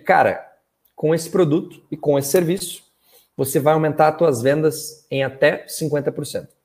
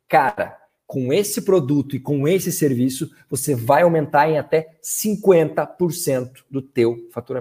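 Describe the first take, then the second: First: It is said in a flat, even tone. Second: It is said with enthusiasm and confidence.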